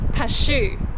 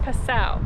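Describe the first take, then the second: First: The name ends with an 'oo' sound. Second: The name ends with an 'ow' sound. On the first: The speaker calls it wrong. "I previously saying Pashu" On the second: The speaker calls it right. "they confirmed that the pronunciation is Passau"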